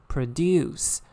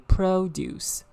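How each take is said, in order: First: The stress is on the second syllable. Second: The stress is on the first syllable. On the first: It is used as a verb. "when it is used as a verb, it's produce. The stress fall on the second syllable" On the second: It is used as a noun. "when it is used as a noun, okay, it should be produce. The stress falls on the first syllable"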